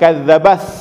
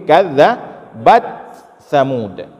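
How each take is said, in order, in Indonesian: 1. T menyatu dengan s yang mengikutinya. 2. T tetap terpisah sebelum s. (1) "jangan dibaca kadzabas" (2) "tapi kadzabat samud"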